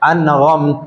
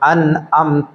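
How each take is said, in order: First: A raspy gh sound is said before amta. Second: A glottal stop is said before amta. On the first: "ഗൈന് കൊടുത്ത് ഓതുന്ന" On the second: "ഹംസ കൊടുത്ത് ഓതുന്ന"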